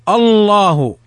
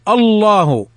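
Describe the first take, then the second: The two takes are said the same way.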